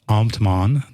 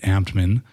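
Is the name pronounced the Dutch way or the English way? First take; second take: Dutch; English. First: The name is said with Dutch pronunciation. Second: The name is said with English pronunciation. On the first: "That's like per- correct Dutch pronunciation" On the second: "but I pronounce it Ambtman"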